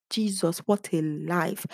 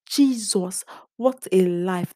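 First: Said in the usual way. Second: Loud cry of despair; shouted. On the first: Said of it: "I said". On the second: Retold or imitated. Vlogger recalling failing her course, shouting. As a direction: exclaim it loud and fed up. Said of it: "That was what I shouted".

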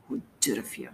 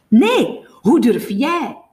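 First: Very soft, low mumble; low drunken muttering. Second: Loud, high, slow comeback; stretched-out, outraged counter-question; angry retort. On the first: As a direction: mumble the accusation under your breath. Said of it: "mompelt Gongrijp". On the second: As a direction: throw the accusation back forcefully. Jamie angrily throws the accusation back. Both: A narrator's reading.

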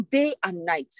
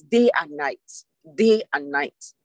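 First: Said in the usual way. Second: "Day and night" said lower and slow, each word weighted; stress on day and night. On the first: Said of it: "That's the emphasis". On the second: Shown as a demonstration. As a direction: lean hard on "Day and night" and drag it out. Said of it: "That's what I want to emphasize".

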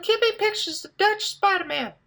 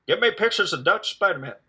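First: Very high mock woman's voice. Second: Lightly voiced boss, pitched higher and pushy; mock bossy demand. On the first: Retelling the female boss's order, very high mock voice. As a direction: squeak it way up high to imitate the boss as a woman. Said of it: "But it's a woman, so it sounds like". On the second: Boss demanding photos from the reporter, mock bossy demand. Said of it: "even if my boss is like".

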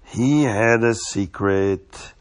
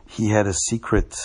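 First: Drawn-out slow reveal; slow and hushed. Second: Said in the usual way. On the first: Shown as a demonstration. Storyteller teases the children with a slow mysterious repeat. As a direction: let "He had a secret" hang, very slowly.

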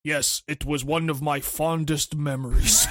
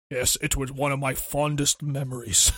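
First: Low, slow deadpan monotone; deadpan Agent 47. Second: Mock solemn reply. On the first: Retold or imitated. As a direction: say it totally flat and slow. 47 as tattoo star, deadpan. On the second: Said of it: "Hey, my voice is like this".

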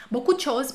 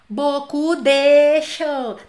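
First: Said in the usual way. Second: Beaucoup de choses, de hit hard, loud and very slow; overstressed de, spelled-out slow and loud; wrong stress on de. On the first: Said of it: "não dá importância pra ele". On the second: Shown as a demonstration. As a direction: lean heavily on "de" in beaucoup de choses, drawn out. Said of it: "Eu não posso falar assim".

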